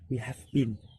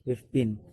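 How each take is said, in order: First: Every word is said fully and separately. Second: The first two words merge into one syllable. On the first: "we've been is the assimilation of we have" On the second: "it got assimilated and pronounced as we've been"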